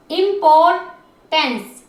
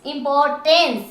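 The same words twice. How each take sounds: First: importance very slowly, part by part; drawn-out, segmented importance; syllable by syllable. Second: Said in the usual way. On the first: Shown as a demonstration. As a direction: sound out each piece of importance. Teacher splits word into syllables.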